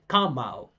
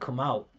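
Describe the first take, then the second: First: The stress falls on the word come. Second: The stress falls on the word out. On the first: The speaker calls it wrong. "He said come out" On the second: The speaker calls it right. "The the second part is always the primary stress"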